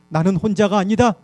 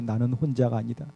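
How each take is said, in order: First: It is said in the loudest voice. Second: It is said in a tiny, faint voice.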